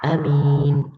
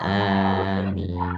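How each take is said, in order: First: The first vowel is kept short. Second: The first vowel is drawn out long. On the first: "a-nya tidak dipanjangkan" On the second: "dengan memberikan mat pada huruf alif"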